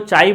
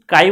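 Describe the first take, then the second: First: The word begins with a ch sound. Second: The word begins with a k sound. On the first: The speaker calls it wrong. "चाई मत बोल देना" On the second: The speaker calls it right. "इसका actual नाम जो है वो काई है"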